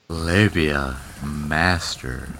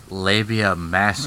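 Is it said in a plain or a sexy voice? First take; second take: sexy; plain. First: It is said in a put-on sexy voice. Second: It is said slowly in a plain voice.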